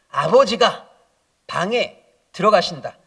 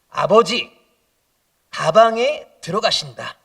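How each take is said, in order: First: The break comes right after 'abeojiga'. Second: The break comes right after 'abeoji'. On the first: Father goes into the room. "이렇게 읽어야 되는 건지" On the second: Father goes into the bag. "이렇게 읽어야 되는 건지"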